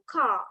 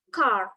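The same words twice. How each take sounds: First: It has a British accent with a faint R. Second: It has an American accent with a clear R.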